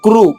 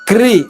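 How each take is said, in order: First: The syllable ends in a rounded oo sound. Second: The syllable ends in a spread ee sound. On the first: "పెదవులు ఎక్కడి వరకు వచ్చినాయి? ముందు వరకు వచ్చినాయి" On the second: "క్రి ఇలా సాగుతున్నాయి"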